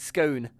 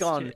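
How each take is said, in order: First: The vowel is long, rhyming with cone. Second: The vowel is short, rhyming with con. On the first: The speaker calls it right. "There's an E in it. It's scone" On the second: The speaker calls it wrong. "It's not scone. It's not S C O N"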